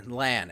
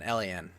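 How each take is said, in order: First: "lan" said as a single word rhyming with "can"; lan said as one word. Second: "L A N" spelled out letter by letter; lan spelled out. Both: Shown as a demonstration.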